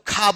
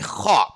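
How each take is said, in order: First: The kh sound is said as in non-Arabic languages. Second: The kh sound is said as in Arabic. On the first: "दूसरे में खा बोलते हो" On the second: "लेकिन अरबी में खा"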